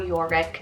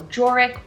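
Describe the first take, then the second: First: The name begins with a Y sound. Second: The name begins with a J sound. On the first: "you could pronounce it as Yorick as well" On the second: "the beginning with the J"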